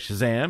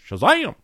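First: It is said in the speaker's normal voice. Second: It is said in a put-on comic character voice.

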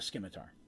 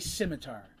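First: The c is pronounced as a hard k. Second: The c is silent, starting with an s sound. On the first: "I call it a scimitar" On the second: "I know some people say scimitar"

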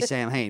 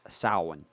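First: The word is pronounced as English spelling suggests. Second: The word is pronounced in its own language's way. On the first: The speaker calls it wrong. "On English, it would be Samhain" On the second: The speaker calls it right. "it's in the way it's pronounced is Samhain"

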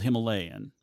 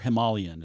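First: The word is said the speaker's usual way. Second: The word is said the way locals say it.

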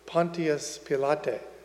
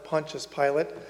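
First: The name has a Latin pronunciation. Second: The name has its usual English pronunciation. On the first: "If you pronounce his name in Latin" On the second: "we hear the term Pontius Pilate"

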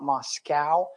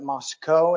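First: Moscow is said the Russian-city way. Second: Moscow is said the local Idaho way. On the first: It names the city in Russia. The speaker calls it wrong. "not Moscow. Moscow's in Russia" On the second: It names the town in Idaho. The speaker calls it right. "They pronounce it Moscow"

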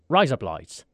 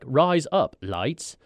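First: The three words are run together. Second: The three words are said separately. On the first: "you kind of run it all together" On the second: "If you say the phrase, rise up lights"

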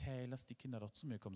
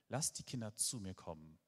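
First: It is said in a gentle, friendly tone. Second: It is said in a strict, loud, angry tone.

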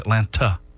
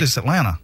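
First: The second T is clearly pronounced. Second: The second T is silent. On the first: The speaker calls it wrong. "He always says Atlanta" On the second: The speaker calls it right. "dude, it's Atlanta. The second T in Atlanta is"

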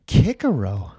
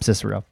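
First: The name begins with a hard K sound. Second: The name begins with a soft S sound. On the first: "insisted that you would pronounce it Kikero" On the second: "I'm going to call him Cicero"

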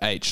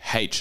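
First: The letter name starts with a vowel sound. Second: The letter name starts with an h sound.

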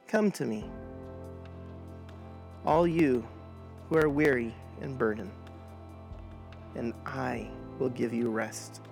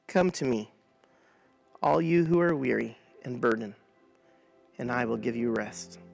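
First: It is read slowly, word by word. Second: It is read at a normal pace.

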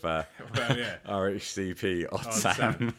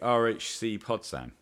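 First: The P is said as a letter name. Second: The P joins the next word as 'pod'. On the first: The name is read as 'Odd Sam' for comedy. "I prefer the comedy value of RHCP Odd Sam" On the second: The name is read as ending in 'podcast'. "I would pronounce it different if you want"

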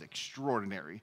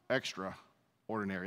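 First: It is said smoothly as one single word. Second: It is split into two separate words. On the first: Something is remarkable, beyond the ordinary. "wow, that is extraordinary" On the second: Something is very plain and ordinary. "But if you do this"

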